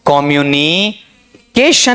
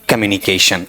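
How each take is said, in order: First: The first syllable carries a stress. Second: The first syllable is unstressed and reduced. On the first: "पहले लगाना चाहूं stress" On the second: "अगर मैं इसे यहां से अनस्ट्रेस्ड बनाना चाहूं"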